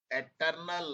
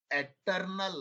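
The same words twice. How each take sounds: The two takes are said the same way.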